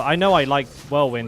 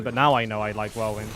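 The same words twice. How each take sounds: First: "know" pushed louder and falling; stress on know. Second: "now" stressed, lower overall. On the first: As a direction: lean on the word "know". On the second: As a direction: hit the word "now" for contrast. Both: Real, not acted.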